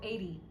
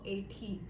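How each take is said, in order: First: It is said in an Australian accent. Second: It is said in an Indian accent. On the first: "in Australian accents we say eight, right? Or eighty" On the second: "We don't say eighty or eighty"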